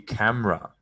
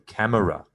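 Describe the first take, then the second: First: The middle vowel is dropped, two syllables. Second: The middle vowel is pronounced, three syllables. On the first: The speaker calls it right. "pronunciation is actually camera" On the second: The speaker calls it wrong. "You don't need to say camera"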